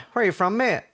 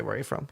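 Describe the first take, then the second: First: Higher-pitched mock cabbie question; imitated nosy cabbie; retold taxi driver. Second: Said in the usual way. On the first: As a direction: play the taxi driver grilling a passenger. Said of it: "So he's like". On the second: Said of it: "sorry, he didn't say".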